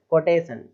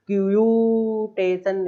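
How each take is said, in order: First: कोटेशन starting straight on "ko", no yu; correct pronunciation. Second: क्यूटेशन with a long high "kyuuu"; wrong pronunciation. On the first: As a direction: say कोटेशन directly, without stretching. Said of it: "यू लगा के नहीं बोलना है". (सीधा कोटेशन, यू के बिना) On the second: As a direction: drag out the yu in क्यूटेशन as a mock mistake. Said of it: "इस तरीके से नहीं बोलना है". (ऊँचा खींचा हुआ ग़लत क्यूटेशन) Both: Shown as a demonstration.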